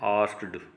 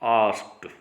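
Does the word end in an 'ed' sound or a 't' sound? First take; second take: ed sound; t sound. First: The ending is said as a separate 'ed' sound. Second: The ending is said as a short 't' sound. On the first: The speaker calls it wrong. "हम अक्सर इसको उच्चारित करते हैं आस्क्ड, जो wrong है" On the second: The speaker calls it right. "ईडी जो sound है ये टे साउंड में परिवर्तित हो जाती है"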